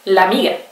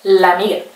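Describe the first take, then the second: The two takes are said the same way.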